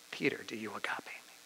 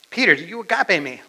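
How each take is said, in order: First: Very soft, near-whispered asking; hushed question. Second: Raised, louder pressing question; insistent question. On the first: Jesus asks Peter a third time about love, hushed. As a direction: ask it gently, almost under the breath. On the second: Jesus presses Peter again about his love, insistent. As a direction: press him firmly for an answer. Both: Acted.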